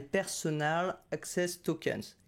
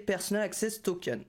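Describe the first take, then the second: First: Put-on slow, careful English accent on the brand name; self-mocking English accent. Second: Said in the usual way. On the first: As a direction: put on your best English accent, slowly. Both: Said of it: "Mon super accent anglais".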